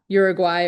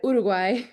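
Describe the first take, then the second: First: The name is said with English-style vowels. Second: The name is said with Spanish vowels. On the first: The speaker calls it wrong. "it's not Uruguay" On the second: The speaker calls it right. "when I pronounce Uruguay"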